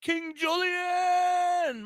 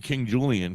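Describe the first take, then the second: First: Drawn out, high excited call; hype shout. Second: Said in the usual way. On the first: Real, not acted. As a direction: stretch the name out like a hype man. Hyping up his co-host.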